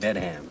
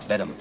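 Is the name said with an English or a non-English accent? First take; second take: non-English; English. First: The name is said without an English accent. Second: The name is said with an English accent. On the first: The speaker calls it wrong. "Not Bedham" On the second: The speaker calls it right. "Very English"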